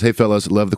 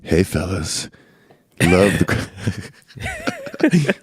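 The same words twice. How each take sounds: First: It is in a plain, normal speaking voice. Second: It is in a put-on, exaggerated sexy voice.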